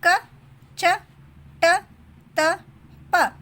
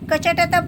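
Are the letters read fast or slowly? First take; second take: slowly; fast. First: The letters are read slowly, one by one. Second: The letters are read fast, run together.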